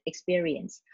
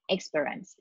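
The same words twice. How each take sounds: First: The word is said in full, every syllable. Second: The word is shortened, with a syllable dropped. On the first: The speaker calls it right. "instead of just experience" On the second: The speaker calls it wrong. "she tend to shorten the word by saying experience"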